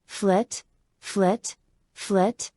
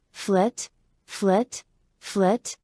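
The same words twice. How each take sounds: The two takes are said the same way.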